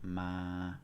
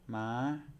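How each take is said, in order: First: The pitch stays level in the middle. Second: The pitch is held high throughout. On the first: "no tone, which is ma. It's monotone" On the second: "then we have high tone"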